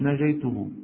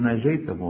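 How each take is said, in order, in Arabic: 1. الحركة بعد التاء هي 'u'. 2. الحركة بعد التاء هي 'a'. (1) "مش ناجيته" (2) "ناجيته. ها انتبهوا"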